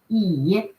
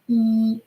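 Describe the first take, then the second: First: The pitch dips low then rises. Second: The pitch stays high and level. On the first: It means chair. "Low, uh, falling rising tone" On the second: It means close. "first with a flat tone"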